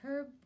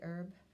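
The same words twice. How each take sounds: First: The word is said in a non-American way. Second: The word is said in the American way.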